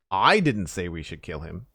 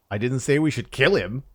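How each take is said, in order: First: "I" stressed with a rising lift. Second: "kill" punched louder and higher; stress on KILL. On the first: Streamer showing chat the shifting emphasis, stress on "I". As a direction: lean on "I" as if it was someone else. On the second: Streamer showing chat the shifting emphasis, loud stress on "kill". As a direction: hit the word "kill" and drop after it. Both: Shown as a demonstration. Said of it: "put the emphasis on a different word".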